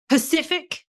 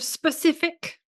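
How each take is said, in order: First: The word begins with a P sound. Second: The word begins with an S sound. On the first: The speaker calls it wrong. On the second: The speaker calls it right.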